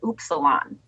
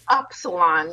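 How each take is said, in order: First: The first syllable sounds like "oops". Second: The first syllable sounds like "up". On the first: This is the original Greek pronunciation. The speaker calls it right. "It's actually supposed to be pronounced Upsilon" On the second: This matches how the word is spelled. The speaker calls it wrong. "we're like Upsilon because it's spelled up"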